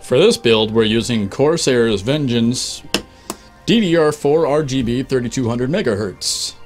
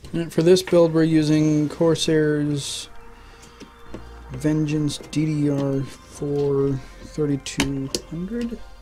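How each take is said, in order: First: It is said loudly with confidence. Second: It is said quietly and trails off.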